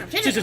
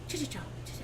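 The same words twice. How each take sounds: First: It is said very fast. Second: It is said at a slow, normal pace.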